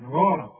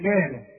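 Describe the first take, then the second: First: The first consonant sounds heavy and full. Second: The first consonant sounds light and thin. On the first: The speaker calls it right. "كل جنس القرآن مدام عليها فتحة تفخم الغاء" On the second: The speaker calls it wrong. "اظن مفيش واحد ابدا يقول غارة ابدا"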